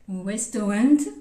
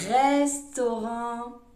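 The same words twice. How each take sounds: First: It is said with an English pronunciation. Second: It is said with a French pronunciation. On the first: "sorry, in English" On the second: "en français"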